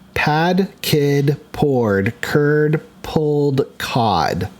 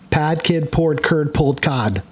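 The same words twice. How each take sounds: First: It is said slowly. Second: It is said fast.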